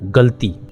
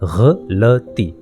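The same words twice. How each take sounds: First: It is said with two long syllables. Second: It is said with three syllables, the last long. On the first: The speaker calls it wrong. "हम रोज़मर्रा में एक लफ्ज़ इस्तेमाल करते हैं" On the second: The speaker calls it right. "असल में इसका जो सही तलफ़्फ़ुज़ है"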